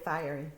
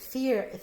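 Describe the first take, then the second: First: The first part sounds like 'fire'. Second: The first part sounds like 'fear'. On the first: This is how the speaker pronounces it. "I say fiery" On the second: Someone else pronounces it this way. "they pronounce it fear"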